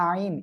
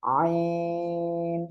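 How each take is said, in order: First: আইন said short, as an everyday word without the long throat stretch; common mispronunciation. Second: আইন from mid-throat, drawn out long on a level note; correct throat articulation. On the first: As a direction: mimic the learners' plain, unstretched আইন. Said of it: "অনেকেই আইন এমন উচ্চারণ করে". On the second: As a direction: intone আইন very slowly with pressed throat. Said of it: "আমরা এভাবে উচ্চারণ করব". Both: Shown as a demonstration.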